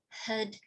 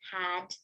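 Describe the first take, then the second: First: The word is weak, short and reduced. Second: The word is said fully with a clear vowel. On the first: It acts as the auxiliary. "this first one, acting as the auxiliary, is going to be very reduced" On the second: It acts as the main verb. "this one is being pronounced as had"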